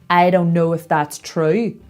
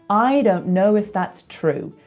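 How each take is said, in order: First: The pitch rises at the end. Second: The pitch falls at the end. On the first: "and go up at the end" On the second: "in my accent, I tend to go down at the end"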